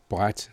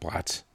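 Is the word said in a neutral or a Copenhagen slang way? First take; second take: neutral; Copenhagen slang. First: The word is said in a neutral standard way. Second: The word is said in a Copenhagen slang way.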